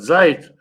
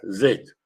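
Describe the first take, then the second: First: The vowel is the diphthong ai. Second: The vowel is the diphthong ei. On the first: This is the southern pronunciation. "На южном языке говорят" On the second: This is the northern pronunciation. "на арабском и на северном языке говорят"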